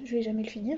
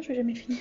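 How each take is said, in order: First: Said in the usual way. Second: Whimpering mock sob on "je vais jamais le finir"; fake-cry the line in playful despair. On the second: Telling viewers she'll never finish the tag, mock crying. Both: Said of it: "je vais jamais finir ce tag".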